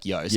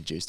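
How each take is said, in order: First: The name rhymes with toast. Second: The name rhymes with juice. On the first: The speaker calls it right. "He says it's Joost, like toast" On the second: The speaker calls it wrong. "They kind of can't commit to it, but they know it's wrong"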